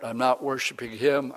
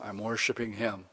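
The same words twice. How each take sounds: First: Said in the usual way. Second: "him" dropped low and much softer, meaning the true God; soft, low "him" set against the other god; hushed contrast. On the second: Shown as a demonstration. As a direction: say "I'm worshiping him" low and quiet, as a heartfelt aside.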